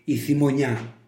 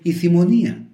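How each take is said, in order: First: The final vowels merge into one syllable. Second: The final vowels are said as two syllables. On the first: This is the form used outside Kymi. "Δεν θα πούν στην Κίμη" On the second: This is the form used in Kymi. "Θα πούν"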